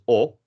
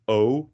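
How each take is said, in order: First: The vowel is short and lax. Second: The vowel is long and tense. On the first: The speaker calls it wrong. "not as o, which is the lax version" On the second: The speaker calls it right. "is pronounced as o"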